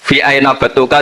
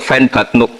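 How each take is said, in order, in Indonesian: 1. Setiap kata diucapkan lengkap dan terpisah. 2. Kata-katanya disambung dan dipendekkan.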